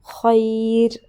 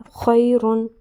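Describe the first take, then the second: First: خیر stopped on a thin ر, a little louder; stopping form. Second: خیرن read in full with its ending "-un"; with tanween. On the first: Teacher shows students the pausal stop on a thin ر. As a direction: stop on خیر, dropping the ending, with the ر light. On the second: Teacher shows the word before the stop, full ending. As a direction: say خیرن in full, not stopping on the ر. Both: Shown as a demonstration. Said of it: "وقف ہے وہ ہم پڑھیں گے خیر".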